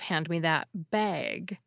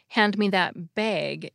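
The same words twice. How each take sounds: First: The vowel in bag is open, as in back. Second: The vowel in bag is raised toward beg. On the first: This is how speakers without the merger say it. "instead of" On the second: This is how speakers with the merger say it. "the bag-bag merger is similar in that people say"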